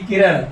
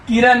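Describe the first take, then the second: First: किरण with a retroflex ण at the end, the correct way; correct pronunciation. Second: किरण with a plain dental n at the end, the wrong way; wrong pronunciation. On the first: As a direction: say किरण ending in a retroflex ण, tongue curled back. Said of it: "किरण नहीं, किरण". (किरण का सही उच्चारण, आखिर में मूर्धन्य ण) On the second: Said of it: "बहुत लोग किरण बोलते हैं, किरण नहीं". (किरण का गलत उच्चारण, आखिर में दंत्य न) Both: Shown as a demonstration.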